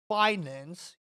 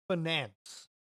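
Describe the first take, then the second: First: "finance" as FY-nance; rejected pronunciation. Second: "finance" as fuh-NANCE; insisted pronunciation. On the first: Quoting a TikTok troll on the wrong way, FY-nance for "finance". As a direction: say "finance" with a long eye in the first syllable. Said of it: "You don't call it finance". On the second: Quoting a TikTok troll on their way, fuh-NANCE for "finance". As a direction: say "finance" with a short first syllable, stress on the second. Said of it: "you call it finance". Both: Retold or imitated.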